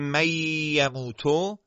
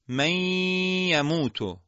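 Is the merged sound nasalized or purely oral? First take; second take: oral; nasalized. First: The merged sound has no nasal resonance. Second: The merged sound keeps a nasal resonance. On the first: The speaker calls it wrong. "بدون اینکه صدا بینی بیاد، این ادغام اشتباهه" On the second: The speaker calls it right. "ادغامش میشه چی؟"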